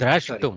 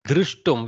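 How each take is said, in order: First: The vowel after 'dr' sounds like 'a'. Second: The vowel after 'dr' sounds like 'u'. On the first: The speaker calls it right. "You have to be very careful" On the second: The speaker calls it wrong. "Where is Drushtum?"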